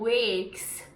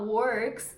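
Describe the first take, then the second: First: It is said in a Liverpool accent. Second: It is said in a standard accent. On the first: "eles falam works" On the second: "em vez de falar works"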